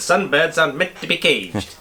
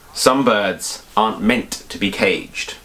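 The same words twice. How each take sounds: First: It is spoken in a put-on Italian accent. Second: It is spoken in the speaker's ordinary accent.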